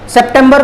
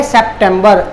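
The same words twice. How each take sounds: First: सितंबर said as "si-tam-bar"; Hindi pronunciation. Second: सितंबर said as "sep-tem-ber"; English pronunciation. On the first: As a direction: say सितंबर with "si" and a dental t. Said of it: "Hindi में बोलते हैं". (सितंबर का हिंदी उच्चारण, "सि-तम्-बर") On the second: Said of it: "English में जब pronounce करना हो". (सितंबर का अंग्रेज़ी उच्चारण, "सेप्टेंबर") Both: Shown as a demonstration.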